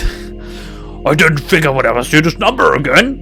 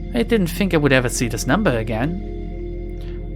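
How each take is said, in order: First: It is said in a growling, ogre-like voice. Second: It is said in a normal voice.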